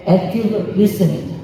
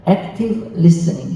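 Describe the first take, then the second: First: 액티브 리스닝 said slowly in chorus, 액티브 stressed with a fall; group repeat. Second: 액티브 리스닝 said slowly, 액티브 leading with a falling tune; stress on active. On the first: Congregation echoing the lecturer, slow and stressed. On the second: Lecturer showing the congregation how to say it, 액티브 stressed. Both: Shown as a demonstration. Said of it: "시작".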